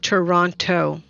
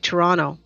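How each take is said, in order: First: Toronto is said the careful, non-local way. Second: Toronto is said the relaxed, local way. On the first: The speaker does not live in the city. The speaker calls it wrong. "and not Toronto" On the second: The speaker lives in the city. The speaker calls it right. "we would just say Toronto"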